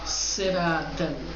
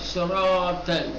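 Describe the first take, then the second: First: The s sound is thin and light, with hissing. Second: The s sound is thick and heavy, with less hiss. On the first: The speaker calls it wrong. "नहीं कहेंगे सिरातल" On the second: The speaker calls it right. "आवाज को मोटी बना"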